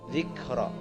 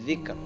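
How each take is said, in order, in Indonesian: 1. Kata ini berakhir dengan vokal setelah r. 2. Kata ini berhenti pada r di akhir.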